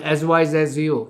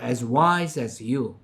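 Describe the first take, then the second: First: The word wise is not given extra stress. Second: The word wise is given strong stress. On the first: The speaker calls it wrong. "이게 아니라" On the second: The speaker calls it right. "as 다음에 오는 말에 강세를 넣어요"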